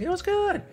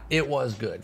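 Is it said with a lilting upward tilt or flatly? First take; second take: lilting; flatly. First: It is said with a lilting upward tilt. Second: It is said flatly, without a lilting rise.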